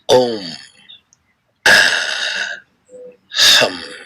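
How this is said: It is spoken aloud in a full voice.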